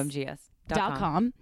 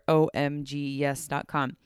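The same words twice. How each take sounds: First: The name is said at a quick pace. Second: The name is said at a slow pace.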